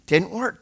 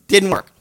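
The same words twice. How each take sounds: First: Said in the usual way. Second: Louder verdict on "Didn't work"; "Didn't work" said louder and final; louder flat verdict. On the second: Real, not acted.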